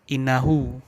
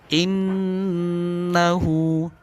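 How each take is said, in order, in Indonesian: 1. Bunyi n pendek, tanpa dengung. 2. Bunyi n ditahan dengan dengung hidung. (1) "bukan innahu" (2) "didengungkan, ditahan"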